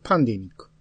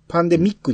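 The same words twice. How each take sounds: First: The stress is on the first syllable pan. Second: The stress is on the third syllable mi. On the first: The speaker calls it right. "パーに来てるじゃないですか" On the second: The speaker calls it wrong. "ミーに入れようとしたら"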